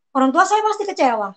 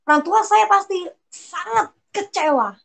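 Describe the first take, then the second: First: Said in the usual way. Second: Sangat raised and stretched; stress on sangat. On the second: Real, not acted. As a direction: lean hard on "sangat" with a higher pitch. Repeats the sentence with emphasis. (tekanan pada "sangat", nada naik)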